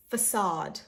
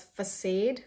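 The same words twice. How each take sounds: First: Facade as "fuh-SAHD"; correct pronunciation. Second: Facade as "fuh-SADE"; common mispronunciation. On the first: Shown as a demonstration. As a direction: say facade with a long ah. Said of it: "This is facade". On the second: Retold or imitated. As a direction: say facade to rhyme with "fade". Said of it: "Some people pronounce it as".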